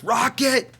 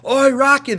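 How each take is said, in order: First: Much higher, called out across the crowd; yelling Rocket. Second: Much higher and louder called-out Oi, Rocket; yelling oi. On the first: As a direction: shout it at the blonde. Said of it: "weird accent". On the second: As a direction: shout it across the bleachers. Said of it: "They started yelling Rocket". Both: Retold or imitated.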